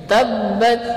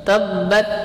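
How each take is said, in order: No difference in how they are said.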